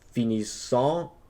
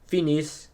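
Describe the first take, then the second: First: The ending is voiced as a nasal 'ant' sound. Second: The ending is dropped, ending on the 's' sound. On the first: The speaker calls it wrong. "We don't pronounce it as finissant" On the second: The speaker calls it right. "the E and T are silent"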